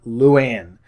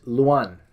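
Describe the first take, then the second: First: Luann said slowly as Lou-ANN, the wrong way; admitting a mispronunciation, Luann drawn out as Lou-ann; wrong pronunciation. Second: Luan said slowly as Loo-AHN, the right way; correct pronunciation. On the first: Correcting a guest's name, slowly says the wrong Luann. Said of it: "That's my boorish Canadian accent coming out". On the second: Vlogger fixing a guest's name, slow careful Luan. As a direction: carefully give Luan a short open ahn ending. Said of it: "That's how you pronounce it". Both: Shown as a demonstration.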